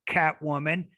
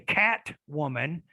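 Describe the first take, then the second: First: The t is said as a glottal stop. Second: The t is said as a full t. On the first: "then you are using the glottal stop" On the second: "then you don't use the glottal stop"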